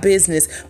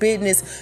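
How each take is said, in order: First: The middle has a clear z sound: 'business'. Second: The middle sounds like a d: 'bidness'. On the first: The speaker calls it wrong. "not business" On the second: The speaker calls it right. "I said business, B-I-D-N-E-S-S"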